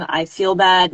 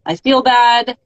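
First: Said in the usual way. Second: Higher and louder, a strained cry of I feel bad; a sudden pained outburst; anguished self-talk. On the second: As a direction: blurt it out as if it bursts from you. Voicing own inner spiral.

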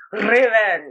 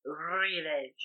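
First: Revenge with a rolled R, louder. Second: Said in the usual way. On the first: Shown as a demonstration. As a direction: try to roll the R in Revenge. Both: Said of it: "Oh, no, wait".

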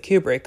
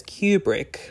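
First: Kubrick said as "KOO-brick"; alternative pronunciation. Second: Kubrick said as "KYOO-brick"; daughter's pronunciation. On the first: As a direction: say Kubrick with a plain oo, no y glide. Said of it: "whereas some pronounce it Kubrick". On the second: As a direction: say Kubrick with a y glide, like "cue-brick". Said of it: "his daughter Vivian pronounces it as". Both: Shown as a demonstration.

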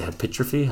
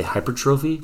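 First: Hypertrophy said "hi-PIT-ruh-fee"; own mispronunciation. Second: Hypertrophy said "HY-per-TRO-fee", R and long O sounded; standard pronunciation. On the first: Admitting his own odd way, hypertrophy as hi-PIT-ruh-fee. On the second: Apologising to people who say it properly, hypertrophy as hyper-TROH-fee. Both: Shown as a demonstration. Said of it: "but I say hypertrophy".

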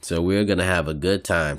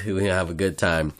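First: Talking through a yawn; words stretched by a yawn. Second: Said in the usual way. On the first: Real, not acted. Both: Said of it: "Sorry, I just yawned".

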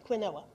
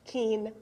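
First: "quinoa" said as kwin-OH-ah, every letter sounded; wrong pronunciation. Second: "quinoa" said as KEEN-wah, two syllables; correct pronunciation. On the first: Shown as a demonstration. Pastor showing how she used to mispronounce "quinoa". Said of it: "I kept calling it quinoa". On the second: Retold or imitated. Friend correcting the pastor, saying "quinoa" as keen-wah. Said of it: "it says right on the box how to pronounce it".

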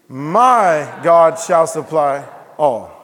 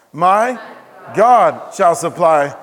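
First: My stretched long and loud, the rest following; stress on My. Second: God loud and drawn out after a break; stress on God. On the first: Pastor leading the church in meditation, stress on My. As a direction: call out My slowly and hard, then finish. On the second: Pastor leading the church in meditation, stress on God. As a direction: pause after My, then hit God hard. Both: Shown as a demonstration. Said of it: "emphasize each word and say the rest".

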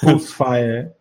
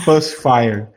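First: "Pulse" said with its own rounded vowel; careful "Pulse Fire" as a pronunciation model; demonstrating pronunciation. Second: "Pulse" said like "pâs", without the L; low, careful "Pulse Fire" with "Pulse" as "pâs"; demonstrating pronunciation. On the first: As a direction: show how "Pulse" sounds, set apart from "Pussy". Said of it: "É duas pronúncias diferentes". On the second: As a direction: open central vowel in "Pulse", as in "pâs". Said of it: "É porque você tá pronunciando errado". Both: Shown as a demonstration.

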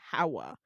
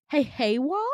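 First: "Hawa" with an open HA, then WA; correct name pronunciation. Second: "Haywa" with HAY as first syllable, loud and questioning; mispronounced name. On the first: Shown as a demonstration. Patient correcting the nurse on her name, "Hawa" said HA-wa. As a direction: say "Hawa" as HA-wa, plainly. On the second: Retold or imitated. Nurse guessing the patient's name, "Haywa" mispronounced as HAY-wa. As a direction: try "Haywa" as HAY-wa, rising unsure. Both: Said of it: "it's pronounced Hawa".

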